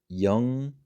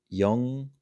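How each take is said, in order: The two takes are said the same way.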